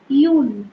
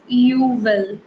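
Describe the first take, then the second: First: It is said as one contracted syllable. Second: It is said as two full separate words. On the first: The speaker calls it right. "You have to pronounce it as you'll" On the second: The speaker calls it wrong. "Don't pronounce it as you will, then it is wrong"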